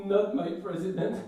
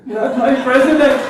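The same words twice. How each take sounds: First: Mild, higher-pitched American whine; mock American crying. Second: Loud, high American protest wail; mock American crying. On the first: Comedian imitating his son crying in American, mild whine. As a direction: start a pretend American cry, held back. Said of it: "when he cries with an American accent". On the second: Comedian imitating his son crying in American, loud wail. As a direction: blow it up into a hammed-up American bawl. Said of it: "cries with an American accent".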